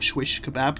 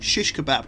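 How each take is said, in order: First: The first word begins with an 'sw' sound. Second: The first word begins with an 'sh' sound. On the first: The speaker calls it wrong. "That's not what it's called" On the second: The speaker calls it right. "Shish Kebab, not Swish Kebab"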